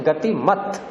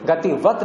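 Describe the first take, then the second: First: गतिमत ending in -mat; गतिमत as the model form, with -mat; correct word form. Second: गतिवत with v in place of m; गतिवत as the counterexample, ending -vat; rejected word form. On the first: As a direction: say गतिमत with a clear m. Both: Shown as a demonstration. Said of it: "गतिवत नहीं कहेंगे".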